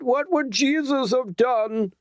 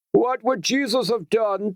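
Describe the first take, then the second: First: Much higher, slow, drawn-out bellow. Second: Much higher bellowed question; bellowing. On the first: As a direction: stretch each word out. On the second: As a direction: hurl it at the crowd. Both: Acted. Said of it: "Another man bellowed".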